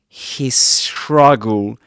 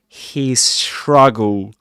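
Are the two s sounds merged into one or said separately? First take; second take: merged; merged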